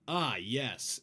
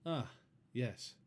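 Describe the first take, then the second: First: It is said with lively, punchy energy. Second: It is said flatly, with little energy.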